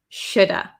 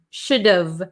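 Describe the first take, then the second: First: The H and V are dropped, ending in 'uh'. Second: The H is dropped, leaving a contracted V ending. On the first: "The V kind of becomes silent" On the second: "we get rid of this H"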